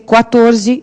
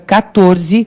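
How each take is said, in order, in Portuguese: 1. Começa com som de kw, ouve-se o u. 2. Começa com k simples, não se ouve o u. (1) "Se a gente escreve Q U A, a pronúncia vai ser quatorze" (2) "escreve C I A, fica quatorze"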